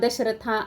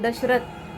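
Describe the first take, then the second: First: The name ends with an added a vowel. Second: The name ends on the consonant th. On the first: The speaker calls it wrong. "असं बोलायचं नाही" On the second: The speaker calls it right. "बोलताना आपण दशरथ"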